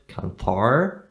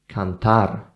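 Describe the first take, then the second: First: The r is soft, tongue not touching the palate. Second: The r is tapped with the tongue on the palate. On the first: The speaker calls it wrong. "it's not cantar" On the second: The speaker calls it right. "it's cantar"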